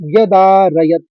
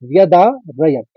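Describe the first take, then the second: First: The word is said smoothly without any break. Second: The word is split by a break in the middle.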